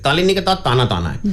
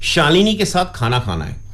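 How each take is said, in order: First: The sh and kh sounds become t sounds. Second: The sh and kh sounds are said clearly. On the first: "तुतलाना, कह को तय बोलना" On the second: "किसी ने व्यक्ति ने कहा"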